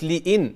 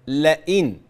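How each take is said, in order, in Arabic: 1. المقطع الأول فيه كسرة. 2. المقطع الأول فيه فتحة. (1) "مش لئن" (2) "لا لئن. لئن لم مفتوحة"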